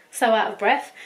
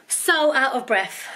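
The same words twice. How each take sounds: First: Breathless repeat; out of breath. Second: Out of breath. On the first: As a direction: still catching breath. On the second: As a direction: talk while catching your breath. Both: Real, not acted.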